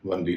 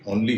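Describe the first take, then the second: First: The word begins with a w sound. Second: The word begins with a plain vowel sound. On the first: The speaker calls it wrong. "वनली नहीं है" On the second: The speaker calls it right. "उसका उच्चारण भी ओनली है"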